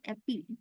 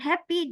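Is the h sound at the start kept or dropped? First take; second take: dropped; kept. First: The word begins without any h sound. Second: The word begins with a clear h sound. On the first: The speaker calls it wrong. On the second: The speaker calls it right. "Not dropping G in his sounds"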